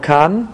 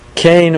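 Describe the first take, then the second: First: The vowel sounds like 'ah'. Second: The vowel sounds like 'ay'. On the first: "Some pronounce it Shiluach Ha Kan" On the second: "Some pronounce it Shiluach Ha Kain"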